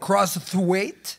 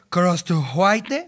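First: The name is pronounced with English sounds. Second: The name is pronounced with Spanish sounds. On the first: "con inglés sería como Crosswhite" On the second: "en español, Crosswhite"

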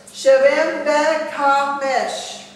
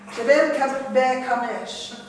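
First: It is said slowly. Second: It is said fast.

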